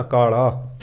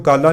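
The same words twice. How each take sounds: First: ਕਾਲਾ with a long first vowel and single L; correct reading. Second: ਕਾਲਾ with a short first vowel and doubled L; wrong reading. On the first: Preacher correcting the scripture reading, ਕਾਲਾ with long vowels. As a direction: say ਕਾਲਾ evenly as kaa-laa. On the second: Preacher showing how not to read it, ਕਾਲਾ as kalla. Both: Shown as a demonstration. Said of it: "ਇਹਨੂੰ ਕਾਲਾ ਨਹੀਂ ਪੜ੍ਹਨਾ".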